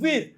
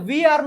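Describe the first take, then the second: First: The words are contracted into one syllable. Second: Two separate words are said in full.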